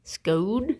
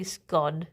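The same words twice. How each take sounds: First: Scone said like cone; scone rhyming with cone. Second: Scone said her plain way; her way of saying scone. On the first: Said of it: "Like cone?". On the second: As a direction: say scone as she does, not posh. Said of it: "how do you pronounce scone". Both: Shown as a demonstration.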